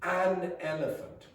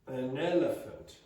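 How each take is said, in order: First: The vowel in 'an' is strong and full. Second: The vowel in 'an' is weak and reduced. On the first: The speaker calls it wrong. "the vowel sound becomes strong" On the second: The speaker calls it right. "you really want"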